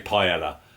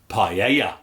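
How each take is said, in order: First: It is said with a London accent. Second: It is said with a Spanish accent.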